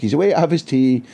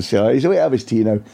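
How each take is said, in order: First: Mock PR officer. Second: Said in the usual way. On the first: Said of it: "He didn't sound like a Scotsman". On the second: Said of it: "I'm paraphrasing a little bit".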